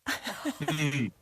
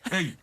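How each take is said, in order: First: It is said in a needy, complaining tone. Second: It is said in a hard, threatening tone. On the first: The speaker wants food. "I'm hungry" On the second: The listener should back off. "do not mess with me"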